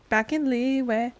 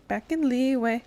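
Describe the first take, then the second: No difference in how they are said.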